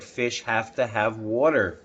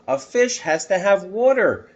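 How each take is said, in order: First: Said in the usual way. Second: Put-on higher, louder urgent child voice; boy's urgent plea. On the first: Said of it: "remember what we said". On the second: Boy insisting to the policeman, higher and urgent. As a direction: plead like a worried boy. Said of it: "I said to the policeman".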